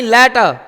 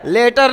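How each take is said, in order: First: लेटर said "leta", no final r; the correct non-rhotic लेटर; right way, leta. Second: लेटर said "leter" with a sounded r; the rejected rhotic लेटर; wrong way, letter with r. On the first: Teacher models the correct letter for the class. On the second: Teacher shows pupils the mistaken letter. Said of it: "लेटर नहीं". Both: Shown as a demonstration.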